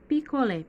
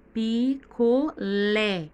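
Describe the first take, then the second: First: Said in the usual way. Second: Picolé drawn out syllable by syllable, LÉ strongest; slow, loud picolé with a heavy last syllable; stress on final syllable. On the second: Shown as a demonstration. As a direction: break picolé into pi-co-LÉ, very slow, punching LÉ. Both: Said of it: "o lé está mais forte".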